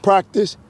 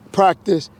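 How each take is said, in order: Both takes have the same delivery.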